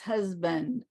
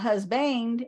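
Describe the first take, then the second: First: The second syllable has a reduced schwa vowel. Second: The second syllable has a full, clear vowel. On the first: The speaker calls it right. "it's husband, ... more like a schwa" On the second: The speaker calls it wrong. "It's not husband"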